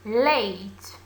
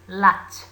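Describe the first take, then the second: First: The word is pronounced like 'late'. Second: The word is pronounced like 'lat'. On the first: The speaker calls it right. "pay attention please to the pronunciation of your teacher" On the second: The speaker calls it wrong. "we cannot pronounce the word late as uh, lat"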